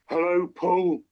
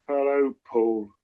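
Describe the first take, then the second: First: It sounds quite angry. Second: It sounds weary and exasperated.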